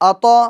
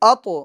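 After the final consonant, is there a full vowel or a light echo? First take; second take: full vowel; light echo. First: A clear vowel is heard after the final consonant. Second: A light echo follows the consonant without a vowel. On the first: The speaker calls it wrong. "इस तरह भी नहीं करना है कि हरकत जाहिर हो" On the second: The speaker calls it right. "बल्कि"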